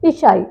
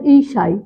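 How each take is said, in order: First: ईसाई with a short first i; आम गलत उच्चारण. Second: ईसाई with a long first ee; शुद्ध उच्चारण. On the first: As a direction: start ईसाई on a quick short "i". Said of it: "आप बोलते हैं ना". (ईसाई को "इसाई" बोलें) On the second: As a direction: open ईसाई on a full "ee". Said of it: "ये शुद्ध क्या हो जाता है". (ईसाई की पहली "ई" लंबी) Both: Shown as a demonstration.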